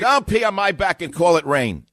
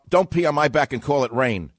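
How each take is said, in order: First: Emphatic, louder repeat of "Don't pee on my back and call it rain". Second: Said in the usual way. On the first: Real, not acted. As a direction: hammer the saying home. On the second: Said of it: "the way we said it in New York".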